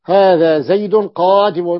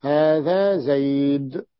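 First: زيد said zaydun with nunation into قادم, slow and loud; connected nunation. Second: زيد ends in a bare silent d, slow and soft; pausal stop. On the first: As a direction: run زيد into قادم with a clear nun. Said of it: "بالوصل". (زيدٌ بالتنوين في الوصل) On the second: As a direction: stop on زيد with no vowel and no nun. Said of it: "الوقف ماذا أقول". (زيدْ بالسكون في الوقف) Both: Shown as a demonstration.

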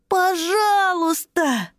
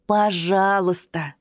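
First: High, slow shouted please; pleading cry. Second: Said in the usual way. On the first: Acted. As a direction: cry out begging. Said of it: "вскричал малыш-садовод". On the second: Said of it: "объяснил Рути".

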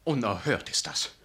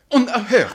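First: Said in the usual way. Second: High, loud indignant cry; shrill burst of indignation; outraged outburst. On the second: Acted. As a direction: explode with a half-laughing outrage. Vicar outraged at the news.

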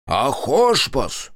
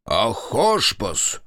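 First: Very slow, drawn-out roar; long goal yell. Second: Slow, drawn-out bellow; long yell. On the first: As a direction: bellow it long like a war cry. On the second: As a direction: stretch the cry out long. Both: Acted. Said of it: "страшно кричал Кондрат".

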